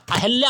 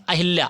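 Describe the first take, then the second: First: अहिल्या as the corrected form, middle syllable leaned on; correction shown. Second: अहिल्या said quickly as listed; written form read out. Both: Shown as a demonstration. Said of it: "अहिल्या होता है".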